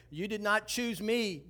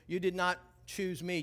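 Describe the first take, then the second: First: "You did not choose me" slowed, each word laid down deliberately; Jesus's words, savored slowly; slow, weighty verse. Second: Said in the usual way. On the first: Shown as a demonstration. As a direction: lean hard on "did not".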